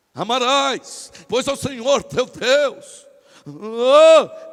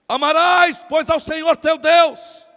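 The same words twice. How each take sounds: First: Slow, swelling mock-holy declamation; put-on pious voice. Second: Loud, high declamation; memorised recitation. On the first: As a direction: stretch each word with exaggerated religious solemnity. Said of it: "quando vai falar com Deus muda de voz". (voz forçada de quem fala com Deus) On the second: Acted. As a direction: recite it loudly like a learned speech. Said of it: "tava decorado". (discurso decorado, declamado alto)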